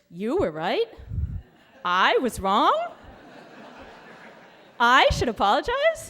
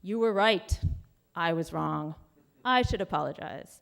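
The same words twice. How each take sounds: First: It is read with rising, skeptical question intonation. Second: It is read as plain, flat statements.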